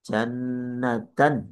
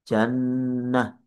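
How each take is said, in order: First: The word ends in a t followed by -an. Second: The word ends in a quiet h sound. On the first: The reading continues without stopping. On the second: The reader stops on this word.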